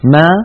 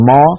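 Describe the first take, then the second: First: The syllable is said light and thin. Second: The syllable is said heavy and thick. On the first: The speaker calls it right. "بل تقول ما" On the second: The speaker calls it wrong. "العرب لا تقول ما"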